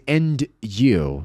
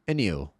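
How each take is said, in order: First: The d is heard and the words stay separate. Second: The d is dropped and the words run together. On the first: "Em vez de and you, separadamente" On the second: "você vai ouvir and you"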